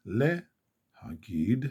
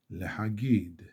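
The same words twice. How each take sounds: First: להגיד split as le, pause, hagid; slowed down. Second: Said in the usual way. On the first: Shown as a demonstration. Teacher slows it for learners, להגיד broken after le. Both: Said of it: "back, slow it down".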